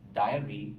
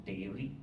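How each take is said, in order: First: "diary" with an eye vowel, DIE-uh-ree; pronounced as diary. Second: "dairy" with an ay vowel, DAY-ree; pronounced as dairy. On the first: Teacher separating diary from dairy for students, "diary" as DIE-uh-ree. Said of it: "I'm pronouncing it as diary". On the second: Teacher showing the confused word, "dairy" as DAY-ree. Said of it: "I'm pronouncing it as diary, not dairy". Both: Shown as a demonstration.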